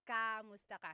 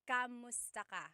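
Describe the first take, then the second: The two takes are said the same way.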